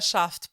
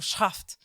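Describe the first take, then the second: First: The name starts with a plain sh sound. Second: The name starts with a harsh, guttural sound. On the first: The speaker calls it wrong. "eu vou pronunciar Shaft porque eu não sei fazer direito" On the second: The speaker calls it right. "Eu sei que a pronúncia é tipo Shaft"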